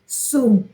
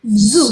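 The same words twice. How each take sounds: First: The first sound is a voiceless hissing s. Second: The first sound is a voiced buzzing z. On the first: The speaker calls it wrong. "You do not say zoo" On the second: The speaker calls it right. "you say zoo"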